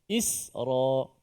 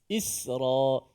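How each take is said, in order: The two takes are said the same way.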